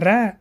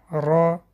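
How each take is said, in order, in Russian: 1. Слог лёгкий, с тонким открытым а. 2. Слог тяжёлый, с тёмным огубленным гласным. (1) "Не ра" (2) "Читается твердо"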